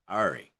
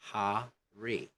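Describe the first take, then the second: First: It is said in a Scottish accent. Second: It is said in a British accent. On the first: "Or in some Scottish people" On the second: "don't blend R with a vowel. Say hurry"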